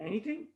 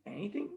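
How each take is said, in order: Both takes have the same delivery.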